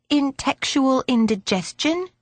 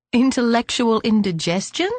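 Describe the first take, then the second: First: Put-on "intextual" for intellectual, in a higher girlish voice; garbled child's mispronunciation. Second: Said in the usual way. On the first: A narrator's reading. Belinda asking about a new term, mispronouncing it as "intextual". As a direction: ask "intextual indigestion" with the middle syllables lost, rising.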